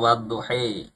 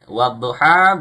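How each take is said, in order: First: The final vowel leans toward e. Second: The final vowel is a plain a.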